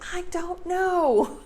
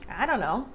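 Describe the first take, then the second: First: It is emphasized, and the T is clearly pronounced. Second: The T in don't is dropped, words run together. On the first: "When you emphasize it like that, that's when the T comes back" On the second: "you just have to take the T out"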